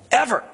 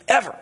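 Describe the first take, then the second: First: Ever. punched high, falling hard; emphatic. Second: Ever. repeated high with a hard fall; emphatic echo. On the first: Preacher hammering home that racism is never excusable, emphatic. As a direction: land Ever. like a verdict. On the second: Preacher repeating his point for the congregation, emphatic. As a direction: drive Ever. home a second time. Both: Real, not acted.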